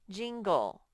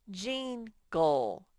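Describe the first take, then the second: First: Said in the usual way. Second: Jingle slowly in two syllables, ending in ol; sounding out words. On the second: Shown as a demonstration. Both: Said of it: "break it into syllables and ... to sound out".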